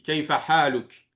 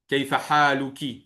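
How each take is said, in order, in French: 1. Le dernier mot se termine par une consonne 'k'. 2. Le dernier mot se termine par une voyelle 'i' brève. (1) "Tu n'es pas obligé de prononcer la dernière voyelle" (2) "On va prononcer la kasara"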